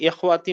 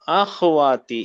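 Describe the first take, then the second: First: The first vowel is an 'i' sound. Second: The first vowel is an 'a' sound. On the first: The speaker calls it wrong. "इखवाती नहीं" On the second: The speaker calls it right. "अखवाती, इखवाती नहीं"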